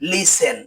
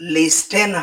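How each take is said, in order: First: The t sound is silent in the middle. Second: The t sound is pronounced in the middle. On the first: The speaker calls it right. "এর উচ্চারণ হবে" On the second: The speaker calls it wrong. "হবে না"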